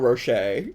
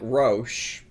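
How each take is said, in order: First: It has two syllables ending in 'shay'. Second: It is one syllable ending in 'sh'. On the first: "like Ferrero Rocher" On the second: "I would guess that was pronounced like Roche"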